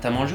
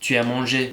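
First: The vowel of 'tu' is dropped entirely. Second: The vowel of 'tu' is clearly pronounced. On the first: "ü harfini düşürdüğümüzde" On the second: "tu as mangé yemek yedin mi diye soruyorlar"

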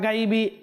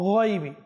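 First: The first consonant is light and thin. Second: The first consonant is heavy and full. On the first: The speaker calls it wrong. "এভাবে আমরা গাইবি বা গাইবি অনেকজন অনেক ধরনের পড়ে থাকি" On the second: The speaker calls it right. "এখানে রয়েছে গইন, হরফে মুস্তালিয়ার হরফ"

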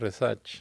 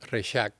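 First: The name is said the Puerto Rican way. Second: The name is said the Catalan way.

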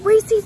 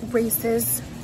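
First: The name is said the Southern way. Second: The name is said the standard way. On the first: This is how people in the South say it. "we just say Reese's because we want to" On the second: This is the accepted pronunciation. "we know it's Reese's"

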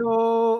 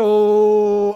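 First: The sound is high and has no support. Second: The sound is deep and supported from below. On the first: The speaker calls it wrong. "the sound is up here, you know, I'm not doing anything" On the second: The speaker calls it right. "I'm putting the lower atom in"

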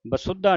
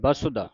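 First: The word is pronounced with a hard, forceful sound. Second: The word is pronounced softly and lightly. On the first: The speaker calls it wrong. "ਬਸੁਦਾ ਨਹੀਂ ਕਹਿਣਾ" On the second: The speaker calls it right. "ਪੋਲਾ ਸ਼ਬਦ ਪੜ੍ਹਨਾ ਹੈ"

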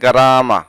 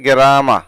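First: The first vowel sounds like 'a'. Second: The first vowel sounds like 'e'. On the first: The speaker calls it right. "সঠিক উচ্চারণ হচ্ছে গারামা" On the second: The speaker calls it wrong. "অনেকে বলে থাকে গেরামা"

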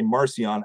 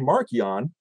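First: The c is a soft sound. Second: The c is a hard k sound. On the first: The speaker has slipped back into habit from fatigue. "I let it slip and I say Marcion. I shift from a hard C to a soft C" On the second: The speaker is concentrating on the preferred form. "the first 40 times I say Marcion"

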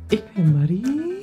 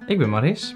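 First: The name ends without an audible s sound. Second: The name ends with a clear s sound. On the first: This is how she says it in the video now. "Maar nu hier zeggen" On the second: This is how she usually introduces herself. "hoe ik me voorstel, zeg ik altijd... Maris"

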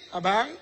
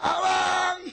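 First: It is said a bit higher and louder. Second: It is shouted loudly like Tarzan.

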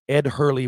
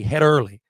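First: The h sound begins the second word. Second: The h sound begins the first word.

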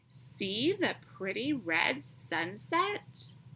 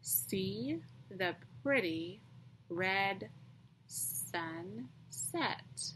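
First: It is read in a lively, expressive voice. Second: It is read in a flat, plain voice.

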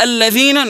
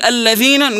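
First: The middle consonant is a voiced th sound. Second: The middle consonant is a voiced th sound.

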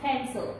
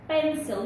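First: The lips do not close for the first sound. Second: The lips close fully for the first sound. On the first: The speaker calls it wrong. "not pencil" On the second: The speaker calls it right. "close your lips"

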